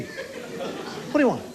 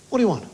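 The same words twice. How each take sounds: First: "What do you want?" drawn out very slowly, softer, half-whispered, stress on do; slow breathy repeat. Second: A curt "What do you want?" with the stress on do; curt receptionist. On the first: Receptionist repeats herself to the patient, slow and hushed. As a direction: stretch every word out with contempt. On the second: Receptionist barks at the patient at the desk, curt. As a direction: snap it at the patient. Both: Retold or imitated.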